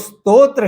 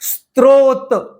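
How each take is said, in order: First: The r sound follows the second t. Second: The r sound follows the first t. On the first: The speaker calls it right. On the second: The speaker calls it wrong.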